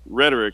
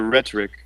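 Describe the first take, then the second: First: The middle consonant sounds soft, almost like d. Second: The middle consonant is a heavy, crisp t. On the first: "with an American accent, I say it almost as if it's spelled with D's" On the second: "The British say rhetoric, and put the heavy T in there"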